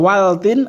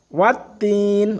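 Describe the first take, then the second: First: The L is clearly pronounced before the next sound. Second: The L is silent, merging into the next sound. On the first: The speaker calls it wrong. "ora waltin" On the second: The speaker calls it right. "alif lamnya tidak dibaca lagi ya"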